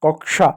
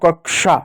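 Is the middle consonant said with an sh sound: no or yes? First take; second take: yes; yes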